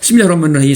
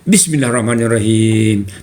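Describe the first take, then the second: First: The phrase is said quickly with sounds dropped. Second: The phrase is said slowly and carefully. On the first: The speaker calls it wrong. "tak betul. Banyak sangat tinggal tu. Ra-nya tak ada tasydid" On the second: The speaker calls it right. "mulai-mulai baca"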